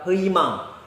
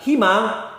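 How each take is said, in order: First: The first syllable is said as 'hui'. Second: The first syllable is said as 'hi'. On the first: A Korean listener would not understand it. The speaker calls it wrong. "Kita bilang 희망" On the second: A Korean listener understands it. The speaker calls it right. "Tapi kalau kita bilang himang, oh himang"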